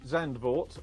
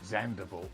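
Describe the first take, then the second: First: The name is said with two syllables. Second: The name has an extra middle syllable, der.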